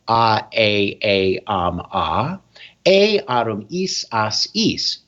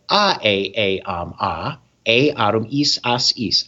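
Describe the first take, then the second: First: The endings are recited at a slower pace. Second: The endings are recited at a faster pace. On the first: "So I was going" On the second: "I start increasing the speed"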